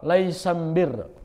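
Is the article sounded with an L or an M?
M. The article is pronounced with an M sound.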